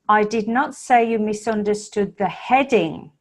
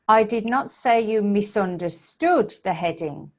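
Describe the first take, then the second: First: The word heading carries the stress. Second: The word misunderstood carries the stress. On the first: Something other than the heading was misunderstood. "it implies that you misunderstood something else, not the heading" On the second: Something else was done to the heading, not misunderstanding it. "the emphasis is on the verb"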